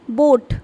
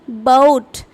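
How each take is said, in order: First: The vowel is one steady sound. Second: The vowel glides from one sound to another. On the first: This is how speakers of the presenter's language say it. "We pronounce it as boat" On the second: This is how native English speakers say it. "A and O sound are being pronounced together"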